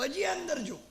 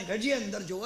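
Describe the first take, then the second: First: હજી raised high, urging onward; higher urging inner voice. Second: Said in the usual way. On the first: Retold or imitated. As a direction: push the inner voice up, insisting. Inner voice urges kotwal onward. (ઊંચા સ્વરે આગ્રહ)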